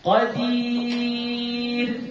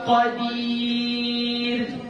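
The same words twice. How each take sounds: The two takes are said the same way.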